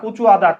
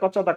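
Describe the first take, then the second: First: The two words are kept apart, said slowly. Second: The two words merge into one, said quickly.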